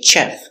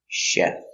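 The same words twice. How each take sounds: First: The word begins with a ch sound. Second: The word begins with a sh sound. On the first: The speaker calls it wrong. "Don't say chef" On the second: The speaker calls it right. "we pronounce it soft. Sh"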